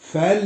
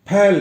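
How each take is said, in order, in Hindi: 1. शब्द की शुरुआत में f की ध्वनि है। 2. शब्द की शुरुआत में महाप्राण p की ध्वनि है। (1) "फैल नहीं गया" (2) "फैल गया"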